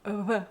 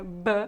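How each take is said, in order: First: The lips barely touch, making a soft friction. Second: The lips press firmly together for the sound. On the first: This is how Old Tupi says it. "Mas no tupi é v" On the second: This is how Portuguese says it. "no português nós tocamos firmemente os lábios, né? Uma, uma, é um som bem bilabial"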